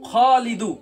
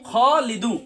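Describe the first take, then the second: Both takes have the same delivery.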